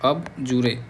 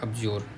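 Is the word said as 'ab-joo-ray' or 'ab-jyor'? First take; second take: ab-joo-ray; ab-jyor. First: It is said as three syllables, 'ab-joo-ray'. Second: It is said as two syllables, 'ab-jyor'.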